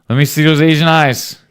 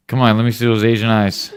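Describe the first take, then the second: First: Higher and louder, playful teasing; louder teasing repeat. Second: Said in the usual way. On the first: Real, not acted. Dad teasing son for a photo, louder playful coax. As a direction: push the line again, louder and higher.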